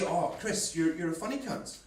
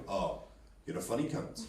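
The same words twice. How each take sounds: First: Friendly, offhand praise; complimentary tone. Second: Low, quiet, cold threat; menacing tone. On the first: Mate praising Chris as funny, complimentary tone. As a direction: say it as a matey compliment. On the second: Someone who is no friend you've made, menacing tone. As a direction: drop it low and hushed, meaning the opposite of praise. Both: Acted. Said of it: "it can come down to tone as well".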